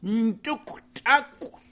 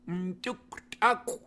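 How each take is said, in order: First: Nduktaku said slowly, loud and clear, syllable by syllable; careful slow pronunciation. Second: Nduktaku said slowly again, ending on a rising tune; repeated pronunciation. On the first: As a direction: spell out Nduktaku slowly for the learner. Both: Shown as a demonstration.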